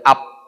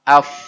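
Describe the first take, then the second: First: The word ends with a p sound. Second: The word ends with an f sound. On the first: The speaker calls it wrong. "Af tidak boleh up" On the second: The speaker calls it right. "Af tidak boleh up"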